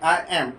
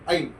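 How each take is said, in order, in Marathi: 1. हे दोन वेगळे पूर्ण शब्द म्हणून म्हटले जाते. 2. हे एका लहान आकुंचित अक्षरासारखे म्हटले जाते. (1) "आय प्लस एम म्हणजे आय एम" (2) "त्याचा शॉर्ट फॉर्म"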